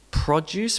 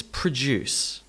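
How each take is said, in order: First: PRO-duce, rising; first-syllable stress. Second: Pruh-DUCE, falling; weak pruh, strong DUCE in "produce"; second-syllable stress. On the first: Teacher repeats the contrast, stressing PRO in "Produce". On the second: Teacher repeats the contrast, stressing DUCE in "produce". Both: Shown as a demonstration. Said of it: "produce versus produce".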